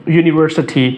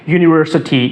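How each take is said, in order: The two takes are said the same way.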